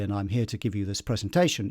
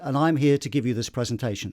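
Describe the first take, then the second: First: The voice is at ordinary volume. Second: The voice is pushed slightly louder. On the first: The speaker calls it wrong. "instead of just going" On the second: The speaker calls it right. "I've just pushed my voice slightly more than I would ordinarily"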